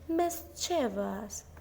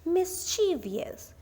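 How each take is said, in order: First: The word is said without an extra syllable. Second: The word is said with an extra syllable. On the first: The speaker calls it right. "The stress is on the first syllable" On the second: The speaker calls it wrong. "mispronounced as mischievous with an extra syllable"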